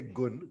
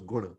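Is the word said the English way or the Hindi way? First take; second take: English; Hindi. First: It ends in a short English-style n. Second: It ends in a Hindi nasal with a vowel. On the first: The speaker calls it wrong. "Gun is more the the English version" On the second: The speaker calls it right. "the actual way I learned it was guna"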